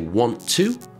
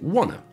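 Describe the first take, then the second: First: Both words are said fully and separately. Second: The words blend into one short reduced form. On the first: "if we say want to" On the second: "we would say wanna"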